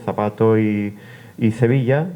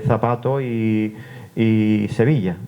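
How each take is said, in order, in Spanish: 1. Tanto la z como la s suenan como th. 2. La z suena como th, la s como s. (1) "donde se cecea" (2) "se distingue, es decir, se pronuncia como en el español estándar"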